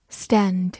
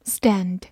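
Both takes have the same delivery.

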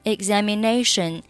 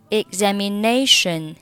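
No difference in how they are said.

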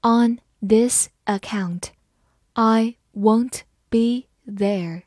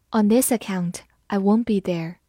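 First: Slow, careful classroom read; slow teacher demo. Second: Said in the usual way. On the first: Shown as a demonstration. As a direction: read it slowly word by word. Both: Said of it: "好，慢慢来读".

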